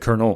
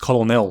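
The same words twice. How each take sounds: First: The word is said without an L sound. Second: The word is said with an L sound. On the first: This is how people actually say it. "but we say colonel" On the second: This is how the word is spelled. "There's an L in there. It's colonel"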